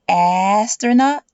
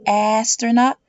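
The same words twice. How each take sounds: The two takes are said the same way.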